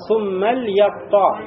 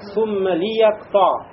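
First: The lam is said without a following vowel. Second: The lam is said with a following i vowel. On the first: This is the widespread reading. "Это согласно, да, распространенному чтению" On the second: This is another accepted reading. "когда этот лям читается как лямуль, читается как этот суммали"

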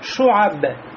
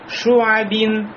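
First: The word ends without the -in sound. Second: The word ends with an -in sound. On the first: Reading stops on this word. "мы при остановке скажем шуаббе" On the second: Reading continues on to the next word. "произносится только при продолжении чтения"

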